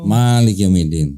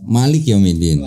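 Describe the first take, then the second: First: The first vowel of Malik is long. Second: The first vowel of Malik is short. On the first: This is the reading used in Indonesia. "Kalau kita" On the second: This is the reading used in Morocco. "Maliknya enggak panjang"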